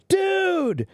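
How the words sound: It sounds warm and friendly, like a greeting. The speaker is greeting a friend after a long time. "If I see my friend, I haven't seen him a long time"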